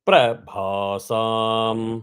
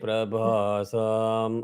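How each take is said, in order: First: The syllable pra has a quick pitch flip. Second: The syllable pra has no pitch flip. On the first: The speaker calls it right. "இந்த பிர flip அடிச்சுட்டு வரணும்" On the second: The speaker calls it wrong. "Don't say பிரபாசாம் அப்போ வந்து பிரா போயிடுது"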